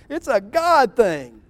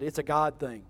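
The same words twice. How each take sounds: First: "It's a God thing." slow, louder, GOD leaned on; emphatic excuse. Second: Softer, offhand "It's a God thing."; quiet aside. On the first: Saul lectures Samuel, slow emphatic "It's a God thing.". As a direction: spell out "It's a God thing." slowly with weight on God. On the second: Saul brushes off Samuel, soft offhand "It's a God thing.". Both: Shown as a demonstration.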